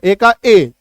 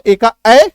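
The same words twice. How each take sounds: First: Second ए said as its letter name "ay"; ए का ए with the long vowel; long A sound. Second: Last ए opened to "ae" as in cat; ए का ए ending on the short vowel; short A sound. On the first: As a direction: give the last ए a long closed "ay". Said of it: "long sound में क्या होता है". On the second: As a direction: say the final ए as a wide "ae". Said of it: "short में आपको याद रखना है". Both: Shown as a demonstration.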